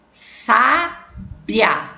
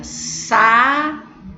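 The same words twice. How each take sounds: First: "Sábia" divided as SÁ-bia, stressed first syllable held; slow two-part syllable demo; two-syllable split. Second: "Sabia" drawn out as sa-BI-a in three beats; slow three-part syllable demo; three-syllable split. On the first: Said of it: "olha a pronúncia como é diferente". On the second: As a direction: separate every syllable of "Sabia", bi on its own. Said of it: "Tem três sílabas". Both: Shown as a demonstration.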